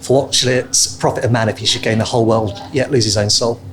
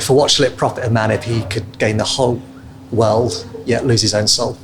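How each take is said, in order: First: It is said at a normal pace. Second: It is said more slowly.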